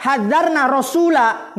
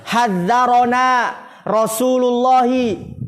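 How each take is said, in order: First: "hadzarna rasula" slow and higher, no vowel after the r; wrong Arabic reading. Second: "Hadzarona Rasulullahi" slow, every vowel sounded, ra open; correct Arabic reading. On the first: Teacher recalls the students' misreading, slow wrong demonstration. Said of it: "kalau tadi kita baca". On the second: Teacher shows students the right reading, slow careful vowels. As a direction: read "Hadzarona" with an a after the r, drawn out. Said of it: "yang benar bagaimana bacanya". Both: Shown as a demonstration.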